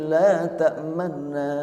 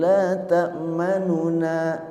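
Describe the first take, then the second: First: The vowel after the n is cut short. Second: The vowel after the n is fully sounded. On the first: The speaker calls it right. "Nu-nya itu setengah" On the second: The speaker calls it wrong. "Bukan la ta'manuna"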